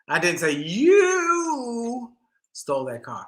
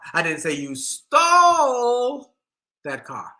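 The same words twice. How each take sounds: First: The word "you" carries the stress. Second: The word "stole" carries the stress.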